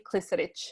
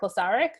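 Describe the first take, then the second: First: The surname is said with its original European sounds. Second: The surname is said with anglicized vowels and sounds. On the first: It is the true family pronunciation. "it's actually Klisaric" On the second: It is the easier everyday version for locals. "I kind of tend to say my name is [name] because it's Western"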